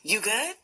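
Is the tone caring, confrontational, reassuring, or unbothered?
caring. It sounds warm and concerned, like a friendly check-in. Asking how the other person is doing. "How are you?"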